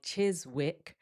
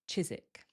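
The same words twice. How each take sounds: First: The W sound is pronounced. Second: The W sound is left out. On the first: The speaker calls it wrong. "this doesn't sound like Chiswick" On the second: The speaker calls it right. "we remove that W, so it sounds like Chiswick"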